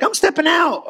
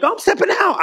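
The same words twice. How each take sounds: First: High, eager retold announcement; mock bold declaration again. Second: High, eager announcement of stepping out; mock bold declaration. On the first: Pastor retelling his own faith step, high eager mock announcement. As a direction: say it up high, proud and sure. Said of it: "I'm like". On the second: Believer stepping out in faith, high eager mock announcement. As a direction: pitch it up like a proud leap of faith. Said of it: "you know, like".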